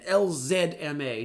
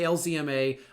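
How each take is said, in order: First: The letter Z is said the Canadian way. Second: The letter Z is said the American way. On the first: The speaker calls it right. "L Z M A just trips me up" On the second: The speaker calls it wrong. "So I'm going to say L Z M A. I'm so sorry"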